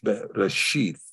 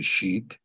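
First: The word ends with a th sound. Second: The word ends with a t sound. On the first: "but in this case, TH" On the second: "some people say sheet"

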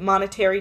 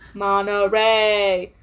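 First: It sounds like the word 'monetary'. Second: It sounds like the place name 'Monterey'. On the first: The speaker calls it wrong. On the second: The speaker calls it right.

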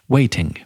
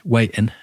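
First: The middle T is pronounced as a clear T. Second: The middle T is replaced by a glottal stop. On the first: It sounds posh and southern. "Or you go with the T" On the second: It is how everyone local says it. "So you can either do a glottal stop, which is waiting"

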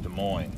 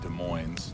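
First: The S at the end of Des is silent. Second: The S at the end of Des is pronounced. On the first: The speaker calls it right. "It's a silent S" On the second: The speaker calls it wrong. "it's not Des Moines"

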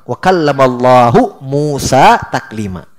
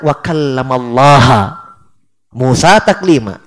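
First: The word Allah ends with a 'u' vowel. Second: The word Allah ends with an 'a' vowel. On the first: God is the one who speaks to Moses. The speaker calls it right. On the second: Moses is the one who speaks to God. The speaker calls it wrong. "Dia baca"

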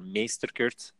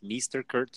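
First: The name is pronounced with Dutch sounds. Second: The name is pronounced with English sounds.

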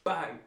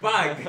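First: The word is said with little force. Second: The word is said with loud, dramatic force. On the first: The speaker calls it wrong. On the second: The speaker calls it right.

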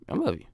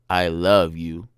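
First: It sounds casual and friendly. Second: It sounds romantic and tender.

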